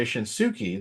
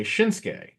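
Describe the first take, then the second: First: Shinsuke said shin-SOO-kee; name wrongly said. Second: Shinsuke said SHIN-skay, slowly; name as they say it. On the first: Cohost showing what they don't say, Shinsuke as shin-SOO-kee. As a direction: say Shinsuke in three beats, ending "kee". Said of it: "but they don't say Shinsuke". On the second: Cohost showing the accepted name, Shinsuke as SHIN-skay. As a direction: say Shinsuke with the u dropped, ending "kay". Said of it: "they say Shinsuke". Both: Shown as a demonstration.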